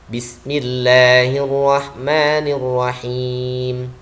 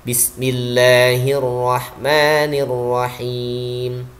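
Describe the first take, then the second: No difference in how they are said.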